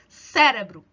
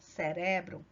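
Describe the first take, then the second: First: The stress is on the first syllable. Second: The stress is on the second syllable. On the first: This is the Portuguese pronunciation. "A sílaba tônica está aqui na primeira sílaba" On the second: This is the Spanish pronunciation. "em espanhol não vai estar na primeira sílaba, vai estar na segunda"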